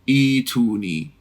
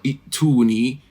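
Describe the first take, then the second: First: The long vowel is drawn out longer. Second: The long vowel is kept short. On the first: The speaker calls it wrong. "You don't say ituni" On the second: The speaker calls it right. "No, qasr"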